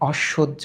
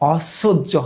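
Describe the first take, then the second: First: The middle consonant sounds like sh. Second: The middle consonant sounds like a plain s. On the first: The speaker calls it right. "এই দন্তস্বয়ের উচ্চারণটা এস এইচ এর মতো হয়েছে" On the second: The speaker calls it wrong. "অসহ্য হয় না"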